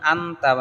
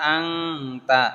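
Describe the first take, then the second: First: The n is pronounced as a clear n. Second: The n is hidden as a nasal ng. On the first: The speaker calls it wrong. "আনতা না" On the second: The speaker calls it right. "এখানে আং হবে, বাংলা অনুস্কার হবে"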